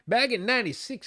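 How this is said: It is said in a put-on old man's voice.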